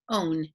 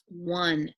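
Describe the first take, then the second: First: It is said with a long O vowel. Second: It is said with a 'w' and short vowel. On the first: The speaker calls it wrong. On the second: The speaker calls it right.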